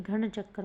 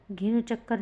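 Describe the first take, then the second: First: घन चक्कर starting "ghan", aspirated; corrected form. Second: घिन चक्कर starting "gin", with i; wrong form. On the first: Teacher giving students the correction, घन as "ghan". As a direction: breathe the gh and use short a in घन. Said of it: "घन चक्कर होगा". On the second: Teacher showing students the error, घिन as "gin". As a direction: put a short i and hard g in घिन. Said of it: "घिन चक्कर नहीं". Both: Shown as a demonstration.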